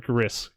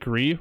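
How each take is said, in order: First: The word ends with an s sound. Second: The word ends on the vowel, no s. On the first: "do you pronounce it Gree or Gris?" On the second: "do you pronounce it Gree or Gris?"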